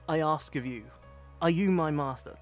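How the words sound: It is said in a British accent.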